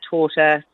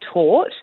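First: The word ends with an a vowel. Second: The word ends on a t sound. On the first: This is how speakers in the country of origin say it. "in Germany, where they pronounce it torta" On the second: This is how British speakers say it. "in the British pronunciation is actually tort"

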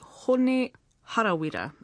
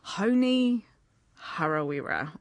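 First: The name is said with Māori pronunciation. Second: The name is said with anglicized pronunciation. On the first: The speaker calls it right. "wouldn't it be great to hear" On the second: The speaker calls it wrong. "instead of"

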